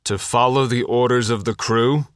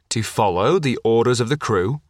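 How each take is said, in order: First: The voice rises at the end like a question. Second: The same.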